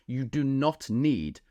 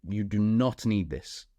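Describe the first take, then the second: First: "You do not need" said slowly, each word spaced and weighted; slow emphatic "You do not need". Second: "not" hit firmly in "You do not need this", slower pace; stress on "not". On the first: Coach to clients, insisting they need no huge following, slow and emphatic. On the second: Coach repeating the point to students, weight on not. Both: Shown as a demonstration.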